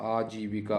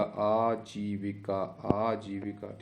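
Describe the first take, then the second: First: Said in the usual way. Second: आजीविका drawn out syllable by syllable; very slow sounding-out. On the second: Shown as a demonstration. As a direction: stretch the long vowels of आजीविका. Teacher sounds out the spelling. (आजीविका को बहुत धीरे खींचकर)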